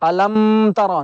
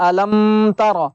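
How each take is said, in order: No difference in how they are said.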